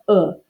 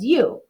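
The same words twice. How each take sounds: First: The vowel has its short, clipped sound. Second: The vowel sounds like its letter name. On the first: "And my U makes the U" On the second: "And my long U says U"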